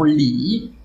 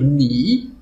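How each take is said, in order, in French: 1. Le mot commence par un son l. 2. Le mot commence par un son n. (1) "peut-être qu'ils diront li" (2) "au lieu de dire ni"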